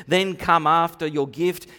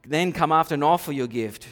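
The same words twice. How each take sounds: First: "come" pushed up, rising at the end; stress on come. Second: "after" punched, then a falling close; stress on after. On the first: Preacher restating Jesus' order, stress on "come". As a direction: lean hard on "come", then lift. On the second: Preacher repeating Jesus' order, stress on "after". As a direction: hit the word "after" and let it drop. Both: Shown as a demonstration.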